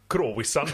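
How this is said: Said the Finnish way, with every letter sounded.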